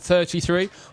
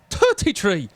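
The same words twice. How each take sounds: First: It is said in the speaker's normal accent. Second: It is said in an Irish accent.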